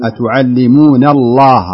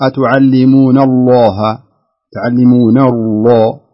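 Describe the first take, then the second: First: الله with a wide open "ā", slow and loud; open-mouthed vowel. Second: الله rounded to "Allōh", slow and loud; wrong rounded vowel. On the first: Teacher correcting student, open unrounded الله. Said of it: "افتح الفم". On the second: Teacher mimicking student's error, rounded الله. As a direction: purse the lips on the long vowel of الله. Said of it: "ما تقول". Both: Shown as a demonstration.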